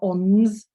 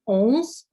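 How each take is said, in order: First: A full n consonant is sounded. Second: The vowel is nasal with no full n. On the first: The speaker calls it wrong. "it's not ons with a n" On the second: The speaker calls it right. "the nasal N"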